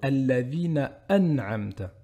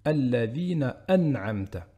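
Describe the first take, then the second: First: A glottal break cuts the sound before an'amta. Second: A glottal break cuts the sound before an'amta.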